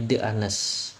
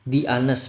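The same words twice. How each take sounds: First: The article sounds like thuh. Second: The article sounds like thee. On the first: The speaker calls it wrong. "bukan bacanya" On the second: The speaker calls it right. "Kecuali juga ada pada di"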